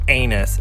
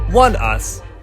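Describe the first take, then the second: First: It sounds like the word 'anus'. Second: It sounds like the words 'one us'. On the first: The speaker calls it wrong. "it's not anus" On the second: The speaker calls it right. "it's one us"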